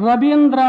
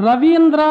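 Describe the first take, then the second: No difference in how they are said.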